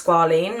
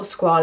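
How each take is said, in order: First: Squalene said SKWAH-leen; long EE in the ending of squalene; first pronunciation. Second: Squalane said SKWAH-lane; alternative pronunciation. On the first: Vlogger unsure of product name, squalene said SKWAH-leen. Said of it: "excuse me if that is not how you pronounce". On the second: Vlogger offering another guess, squalane said SKWAH-lane. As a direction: end squalane to rhyme with "lane". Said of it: "I don't really know how you pronounce it". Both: Shown as a demonstration.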